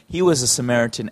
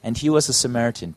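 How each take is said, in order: First: It is said as a lively, excited exclamation. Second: It is said as a flat, plain statement.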